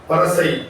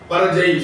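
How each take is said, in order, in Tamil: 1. நடுவில் உள்ள மெய் ஒலி மென்மையான s ஒலி. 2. நடுவில் உள்ள மெய் ஒலி ஓசையுடன் கூடிய j ஒலி. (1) "இடையினம் வந்தா சா என்ற உச்சரிப்பும்" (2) "பரஜை சொல்ல முடியாது"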